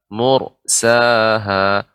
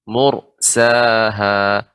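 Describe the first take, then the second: The two takes are said the same way.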